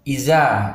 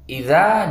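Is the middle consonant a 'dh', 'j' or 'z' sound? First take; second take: z; dh. First: The middle consonant is a 'z' sound. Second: The middle consonant is a 'dh' sound. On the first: The speaker calls it wrong. "ada yang membaca dengan huruf za... Ini juga tidak boleh" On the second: The speaker calls it right. "huruf za"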